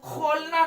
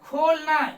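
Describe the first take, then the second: First: It starts with a rasping fricative in the throat. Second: It starts with a breathy, aspirated k sound. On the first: The speaker calls it wrong. "ये खोलना नहीं है" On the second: The speaker calls it right. "ये खोलना"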